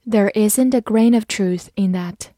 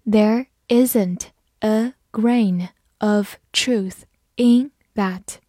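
First: Said in the usual way. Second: Deliberate word-by-word reading; slow reading. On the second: Shown as a demonstration. Teacher models the example sentence once for learners, slow reading. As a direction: read it slowly, leaving gaps between words. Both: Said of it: "慢读一遍".

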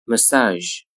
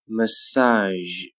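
First: Said in the usual way. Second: "Massage" with long vowel and final zh; slow careful "Massage"; drawn-out model. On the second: Shown as a demonstration. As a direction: stretch "Massage" out for learners. Teacher models word slowly, then normally.

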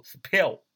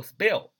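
First: "spell" with a puffed p, like "s-pell"; mis-say "spell" with a burst of air after the p; the mistaken "spell", p strongly aspirated; wrong aspirated p. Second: "spell" with an unaspirated p, like "sbell"; p read as b. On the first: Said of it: "不读spell啊". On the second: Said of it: "读作spell". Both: Shown as a demonstration.

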